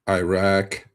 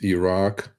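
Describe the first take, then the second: First: The first vowel sounds like 'eye'. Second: The first vowel sounds like 'ih'. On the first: The speaker calls it wrong. "It is not Iraq" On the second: The speaker calls it right. "it's Iraq"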